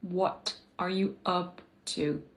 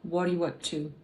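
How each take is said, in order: First: Every consonant is pronounced clearly and fully. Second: The T and P are replaced by glottal stops. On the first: "c'est pas tout à fait ça qu'on entend" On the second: "On entend plutôt ... Donc le T disparaît, on appelle ça le glottal stop"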